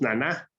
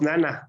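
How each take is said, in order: First: The stress is on the second syllable. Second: The stress is on the first syllable. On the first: The speaker calls it right. "decimos naná" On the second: The speaker calls it wrong. "no decimos nana"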